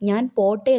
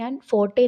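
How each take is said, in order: First: The second word begins with a p sound. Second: The second word begins with an f sound. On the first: A mainland speaker is speaking. "അതിൻ്റെ അർത്ഥം ഞാൻ പോട്ടെ എന്നതാണ്" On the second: An islander is speaking. "ഒരു ദ്വീപുകാരൻ ഞാൻ ഫോട്ടെ എന്ന് പറഞ്ഞാൽ"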